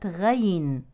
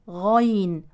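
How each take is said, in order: First: The first consonant is light and thin. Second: The first consonant is heavy and thick. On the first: The speaker calls it wrong. "وليست غين ... ولا نرقق" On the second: The speaker calls it right. "فنقول غا غين ... نفخم"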